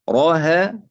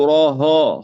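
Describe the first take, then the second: First: The ha sound is light and thin. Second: The ha sound is heavy and thick. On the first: The speaker calls it right. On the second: The speaker calls it wrong.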